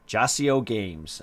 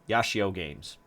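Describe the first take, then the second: First: The name begins with a J sound. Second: The name begins with a Y sound. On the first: The speaker calls it wrong. "I know this is wrong" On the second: The speaker calls it right. "I just wanted to make sure that I got it right"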